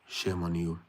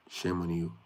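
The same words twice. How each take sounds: The two takes are said the same way.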